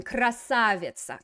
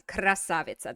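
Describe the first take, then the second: First: Красавица said slowly, stress on the А of -са-; model word. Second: Said in the usual way. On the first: Shown as a demonstration. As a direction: say Красавица carefully, syllable by syllable. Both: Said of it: "That's a better one".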